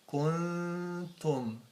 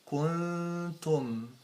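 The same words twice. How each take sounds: First: The lips unround for the n sound. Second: The lips unround for the n sound.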